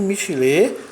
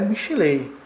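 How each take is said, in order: First: The word ends with a plain vowel. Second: The word ends with a 'y' glide. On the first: The speaker calls it right. "mas sim Michilê com o iud mudo" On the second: The speaker calls it wrong. "cuja pronúncia não é Michilei, como anteriormente pronunciamos"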